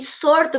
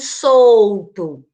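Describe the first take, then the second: First: The word is said with an R sound. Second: The word is said with an L sound. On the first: This is the popular, non-standard pronunciation. "nas falas populares a troca pelo R" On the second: This is the standard pronunciation. "solto com L"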